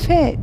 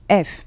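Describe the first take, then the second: First: The vowel comes after the f sound. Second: The vowel comes before the f sound. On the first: This is the Turkish letter name. The speaker calls it wrong. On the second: This is the German letter name. The speaker calls it right.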